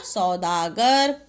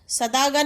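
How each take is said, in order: First: सौदागर slow, with a long औ; सौदागर lower, stretched as "sau-daa-gar"; corrected word. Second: सदागर with a short "a" after स; quick first vowel in सदागर; misspelt word. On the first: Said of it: "क्या होता". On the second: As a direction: say सदागर as "sa-daa-gar". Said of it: "नहीं होता". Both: Shown as a demonstration.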